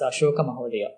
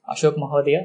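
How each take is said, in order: First: The name ends with a final 'a' vowel. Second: The name ends in a consonant, without a vowel. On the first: The speaker calls it right. "It's Ashoka Mahodaya" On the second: The speaker calls it wrong. "that is wrong"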